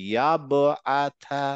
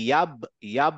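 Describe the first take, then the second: First: Slow "ইয়াবআথা" with ব bouncing; qalqalah echo. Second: "ইয়াব" closed on ব without echo; forced stop. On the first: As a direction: stretch "ইয়াবআথা", echo after the ব. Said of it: "এরকম হবে". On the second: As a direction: shut "ইয়াব" off at the ব. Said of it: "মুখটা automatically আপনার থামতে বাধ্য". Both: Shown as a demonstration.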